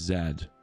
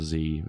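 First: The letter is said as 'zed'. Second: The letter is said as 'zee'.

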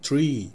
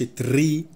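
First: The r is smooth without any trill. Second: The r is trilled with several taps. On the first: The speaker calls it right. "لا tree كده" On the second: The speaker calls it wrong. "ما تقولش تري وتكرر الار كتير"

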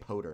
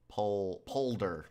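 First: The word is said without an L sound. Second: The word is said with an L sound. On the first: The speaker calls it wrong. "I keep saying polder" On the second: The speaker calls it right. "Polder with an L"

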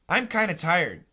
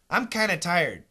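First: The V and D are dropped, giving kinna. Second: The same.

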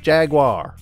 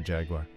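First: It is said in a broad American accent. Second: It is said in a British accent. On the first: The speaker calls it wrong. "whenever Americans say it, it sounds like we're saying like the hillbilly" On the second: The speaker calls it right. "I love when British people say Jaguar"

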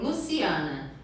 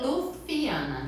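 First: The s sound is a clear hissing s. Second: The s sound is lisped, tongue between teeth.

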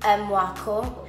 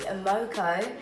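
First: The surname has its native Ghanaian pronunciation. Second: The surname is read as its spelling suggests. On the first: The speaker calls it right. "because it's a Ghanaian last name, it's obviously not pronounced as that. It's Mwako" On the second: The speaker calls it wrong. "my name looks like it should be said as [name]"

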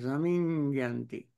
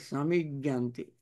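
First: A nasal sound follows the m. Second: No nasal sound follows the m. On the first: The speaker calls it right. "Nasal sound after M" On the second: The speaker calls it wrong. "It is not samijjanti"

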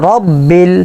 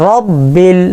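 The two takes are said the same way.

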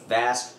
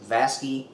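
First: The name ends on the consonant, no added vowel. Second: The name ends with an added 'ee' vowel. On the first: The speaker calls it right. "It's actually Vask" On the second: The speaker calls it wrong. "I have mispronounced the name. I usually refer to them as Vasky. That's not right"

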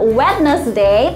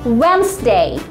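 First: The d sound is pronounced in the word. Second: The d sound is silent in the word. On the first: The speaker calls it wrong. "It's not Wednesday" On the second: The speaker calls it right. "tapi Wednesday. Langsung"

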